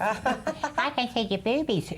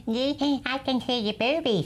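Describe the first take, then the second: First: Lightly voiced child, drawn out slowly; slow little child voice. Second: Lightly voiced small child, higher; a hint of a little kid teasing. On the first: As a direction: repeat it slowly like a small child. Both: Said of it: "a little voice from next door says".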